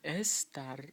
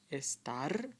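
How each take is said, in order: First: The stress is on the first syllable. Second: The stress is on the last syllable. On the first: The speaker calls it wrong. "So you don't say estar" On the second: The speaker calls it right. "They all have it on the end"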